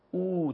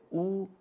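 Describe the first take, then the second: First: او held for two beats; long Arabic u. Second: او as a one-beat u; short Arabic zamme. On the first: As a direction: draw او out as a long u. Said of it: "واو مدی به صورت". (واو مدی عربی، او کشیده) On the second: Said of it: "یک حرکت". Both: Shown as a demonstration.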